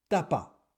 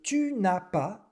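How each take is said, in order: First: Tu shrinks to t and ne disappears. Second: Tu and the ne are both fully pronounced. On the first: The speaker calls it wrong. "se transforme en t'as pas" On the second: The speaker calls it right. "le tu n'as pas"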